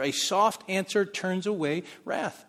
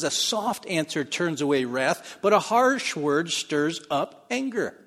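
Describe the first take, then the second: First: Slow, emphatic repetition of the proverb; slow scripture reading. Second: Slow, weighty recitation of the proverb; slow scripture reading. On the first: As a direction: say it slowly as a truth. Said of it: "there's truth there". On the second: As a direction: lean on each word slowly. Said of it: "Proverbs fifteen one says". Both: Shown as a demonstration.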